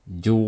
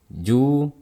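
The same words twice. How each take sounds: First: The syllable sounds thick and heavy. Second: The syllable sounds thin and light. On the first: The speaker calls it wrong. "Jangan seperti ini" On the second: The speaker calls it right. "tipis ya"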